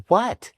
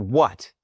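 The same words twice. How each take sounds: First: High, rising startled question; startled wife, imitated. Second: Short, irritated question without a lift; curt answer, retold. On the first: Wife woken by her husband kicking the bed, startled. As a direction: imitate a wife jolted awake. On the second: Husband finally picking up his wife's call, understated curtness. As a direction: answer the phone curtly, understated.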